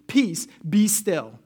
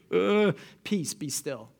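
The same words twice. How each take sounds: First: Slow, firm command with each word spaced out. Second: Sleepy yawning Jesus. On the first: Shown as a demonstration. Jesus rebuking the storm, slow firm command. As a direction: say it slowly, with full authority. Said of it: "That's what he says". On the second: Acted. Jesus just woken by the panicked disciples, sleepy murmur. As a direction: yawn it out like someone just woken. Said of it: "I can imagine he kinda yawns".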